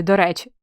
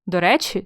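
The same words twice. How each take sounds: First: "до речі" with до leaned on; "до речі", до set apart and falling tune; said as two words. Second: Said in the usual way. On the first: Shown as a demonstration. Teacher asking together or apart, "до речі" split. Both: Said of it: "разом чи окремо".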